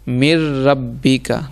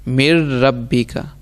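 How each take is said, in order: The two takes are said the same way.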